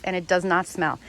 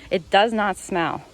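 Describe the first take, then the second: First: Said in the usual way. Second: Slower and louder, leaning on "does"; insist, stressing "does" and spacing the words; slow insistent "It does not smell", "does" hit hard; firm emphatic repeat. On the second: Real, not acted. Repeats her claim more firmly.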